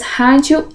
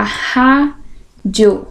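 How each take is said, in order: First: Said in the usual way. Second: "rádio" slowly split in two; syllable by syllable. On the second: Shown as a demonstration. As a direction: pause between the syllables of "rádio". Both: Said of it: "Então, olha lá".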